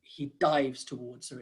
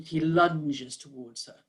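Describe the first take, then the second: First: A brisker "dives", lightly demonstrated; quicker word. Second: Long word. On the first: Coach contrasting word choices for describers, "dives" said more briskly. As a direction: say "dives" shorter, without stretching it. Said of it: "it's a much quicker word". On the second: Coach showing word choice to describers, "lunges" drawn out. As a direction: draw out "lunges" slowly. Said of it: "a long word". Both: Shown as a demonstration.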